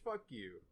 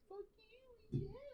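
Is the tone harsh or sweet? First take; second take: harsh; sweet. First: It is said in a harsh, mean tone. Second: It is said in a sweet, friendly tone.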